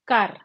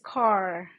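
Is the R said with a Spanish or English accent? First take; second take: Spanish; English. First: The R is said with a Spanish accent. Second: The R is said with an English accent.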